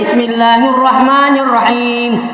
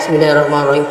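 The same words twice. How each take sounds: First: The Bismillah is recited aloud. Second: The Bismillah is recited quietly, not aloud.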